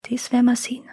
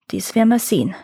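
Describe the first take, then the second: First: Whispered murmur under the breath; murmured quietly. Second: Said in the usual way. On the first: A narrator's reading. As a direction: mutter it to yourself, whispering. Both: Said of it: "murmelte der Händler leise".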